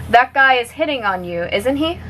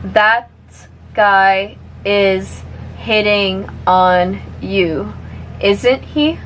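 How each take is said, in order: First: The sentence is spoken at natural speed. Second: The sentence is spoken at a moderate speed. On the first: "one more time at normal speed" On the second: "a little bit faster now"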